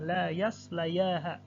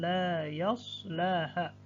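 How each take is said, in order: First: A 'y' sound is pronounced before the final syllable. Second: No 'y' sound before the final syllable. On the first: The speaker calls it wrong. "tidak dibaca ya-nya" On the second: The speaker calls it right. "maka bunyinya dengan la yaslaha"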